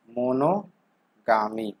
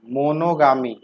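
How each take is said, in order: First: मोनोगामी drawn out very slowly, syllable by syllable; slow spelled-out repeat. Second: Said in the usual way. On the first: Shown as a demonstration. Teacher repeating the new word for students, very slow. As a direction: stretch मोनोगामी slowly so students catch each part. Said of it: "मोनोगामी, (first take)". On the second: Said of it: "मोनोगामी, (repeated slowly)".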